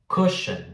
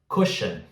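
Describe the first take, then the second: Both takes have the same delivery.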